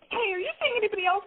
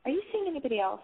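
First: It sounds intense and desperate. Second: It sounds light, upbeat and casual.

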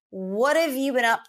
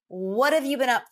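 The two takes are said the same way.

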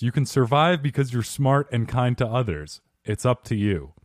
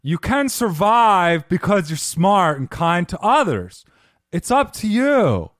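First: It is said in the speaker's normal voice. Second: It is said in a put-on character voice.

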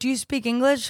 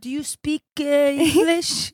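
First: It is said in a plain English accent. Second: It is said in a put-on French accent. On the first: "instead of saying "Do you speak English?"" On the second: "in like an accent in English"

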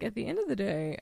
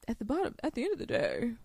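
First: It is said in the speaker's normal voice. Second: It is said in a put-on impersonating voice. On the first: The speaker calls it right. "let me not do that" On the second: The speaker calls it wrong. "when I'm impersonating him, I always do that voice"

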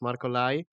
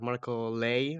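First: The surname is said with a 'lie' vowel. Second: The surname is said with a 'lay' vowel. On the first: The speaker calls it right. "It's like Lai, like the word in English" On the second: The speaker calls it wrong. "maybe sometimes people mispronounce it, you know, like Marco Lay"

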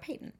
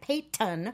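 First: The T in the middle is said softly. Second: The T in the middle is hit hard. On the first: This is how the speaker would naturally say it. "I want to call her Peyton" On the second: This is how others on the show say it. "they hit it real hard, the T"

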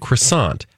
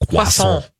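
First: It is pronounced with an anglicized English sound. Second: It is pronounced with a French-style sound. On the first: This is the usual everyday pronunciation. "we kind of anglicize or, you know, make more palatable for the English tongue" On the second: This is the less common pronunciation. "you will occasionally find someone, your mom included"

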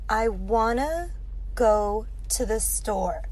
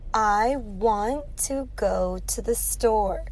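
First: "Want to" is blended into "wanna." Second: "Want to" is said as two separate words.

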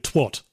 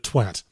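First: The word is said in a non-British way. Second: The word is said the British way. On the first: The writers are not really British. The speaker calls it wrong. "Everyone kept saying twat" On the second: This is how British people say it. The speaker calls it right. "instead of twat"

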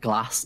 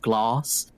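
First: The word is said in a Northern English accent. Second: The word is said in a Southern English accent. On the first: "I also say certain words like a Northerner" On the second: "instead of"

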